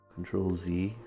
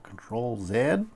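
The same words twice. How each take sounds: First: The letter Z is pronounced the American way. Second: The letter Z is pronounced the non-American way.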